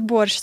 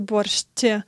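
First: The word ends without a t sound. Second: The word ends with a t sound. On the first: The speaker calls it right. "We say borscht, ... does not have a T at the end" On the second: The speaker calls it wrong. "We don't say borscht"

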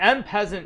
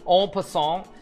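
First: The second word sounds like English peasant. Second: The second word sounds like French passant. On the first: The speaker calls it wrong. "so I should actually be pronounce it correctly" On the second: The speaker calls it right. "pronounce it correctly"

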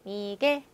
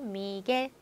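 Both takes have the same delivery.

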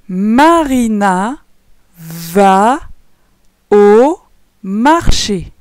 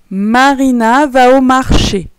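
First: The sentence is read at a slow pace. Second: The sentence is read at a quicker pace. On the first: "Je vais relire normalement, mais lentement" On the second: "Je relis une dernière fois un peu plus vite"

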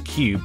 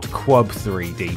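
First: It is said as one syllable, like 'cubed'. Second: It is said as 'cube', then 'three D'. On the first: This is the official pronunciation. "I'm expected to pronounce this minigame as Cubed" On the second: This is how the spelling would suggest. "and not Quub 3D"

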